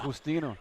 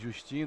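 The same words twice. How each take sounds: First: The name is said with Spanish pronunciation. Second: The name is said with Portuguese pronunciation. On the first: "in Spanish" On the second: "If you were to say it in Portuguese"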